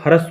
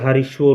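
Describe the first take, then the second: First: The word is said with a plain 'r' sound. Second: The word is said with a 'ri' sound. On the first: The speaker calls it right. "हरस्व होता है, र पूरा आएगा" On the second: The speaker calls it wrong. "ऋषि वाला री नहीं आएगा, हरिश्व नहीं होता है"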